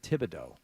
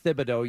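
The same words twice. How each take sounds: First: The name begins with a plain 't' sound. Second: The name begins with a 'th' sound. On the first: "You said Thibodeau" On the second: "I said Thibodeau"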